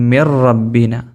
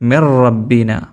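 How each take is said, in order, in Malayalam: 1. n ഇരട്ട r ശബ്ദത്തിൽ ലയിക്കുന്നു. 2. n ഇരട്ട r ശബ്ദത്തിൽ ലയിക്കുന്നു.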